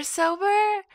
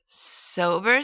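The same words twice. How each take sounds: First: Second sober much higher, pointed query; sober, sober? the serious kind; emphatic sober. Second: First sober with a light rising query; sober, one flat query; questioning sober. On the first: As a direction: push the second sober up as the real meaning. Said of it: "dangerously impulsive alcoholic". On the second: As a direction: ask sober like a simple question. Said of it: "I'm driving tonight sober". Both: Retold or imitated.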